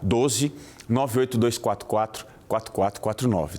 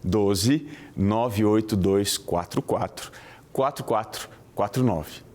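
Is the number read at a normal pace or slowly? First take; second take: normal; slowly. First: The number is read at a normal pace. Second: The number is read very slowly.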